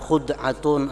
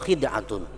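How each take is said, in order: First: The first vowel is u. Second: The first vowel is i.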